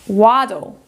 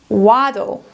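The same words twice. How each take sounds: No difference in how they are said.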